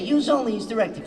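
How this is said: It is said in a New York accent.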